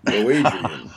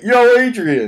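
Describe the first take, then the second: First: It is said shyly and sheepishly. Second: It is said boldly and confidently.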